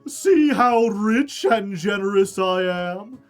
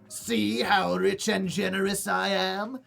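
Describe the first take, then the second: First: It is said in a plain normal voice. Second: It is said in a put-on goblin voice.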